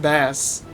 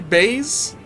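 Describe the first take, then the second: First: The vowel is a short 'a' sound. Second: The vowel is a long 'ay' sound. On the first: It refers to the fish. The speaker calls it wrong. "but I was saying all this time bass, like the fish" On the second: It refers to the low musical sound. The speaker calls it right. "You're supposed to say base, like the sound base"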